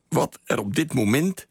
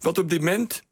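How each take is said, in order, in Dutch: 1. Elk woord wordt volledig uitgesproken. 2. Het wordt snel gezegd, met een woord ingeslikt. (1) "Typerend is bijvoorbeeld" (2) "als mensen heel snel spreken, dan wordt vaak"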